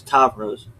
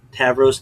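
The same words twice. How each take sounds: First: Tavros with an open "ah"; ah pronunciation. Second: Tavros with the "a" of "cat"; short-a pronunciation. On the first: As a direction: say Tavros as TAHV-rose. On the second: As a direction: say Tavros as TAV-rose. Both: Shown as a demonstration. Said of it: "difference between pronunciations".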